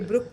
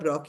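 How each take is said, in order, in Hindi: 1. स्वर एक गोल 'oo' आवाज़ है। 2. स्वर एक खुली 'o' आवाज़ है। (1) "ये ब्रुक प्रोनाउंस नहीं होगा" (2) "ब्रॉक ही होगा प्रोनाउंस"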